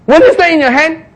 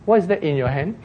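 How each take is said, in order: First: High, raised, insistent question; lifted, emphatic divine query; pointed questioning. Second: Understated bystander's query; quiet aside. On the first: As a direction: ask it as an obvious prompt. The Lord asks Moses pointedly. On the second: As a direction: ask it gently from the next seat. Bystander quietly asks the shouter. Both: Acted.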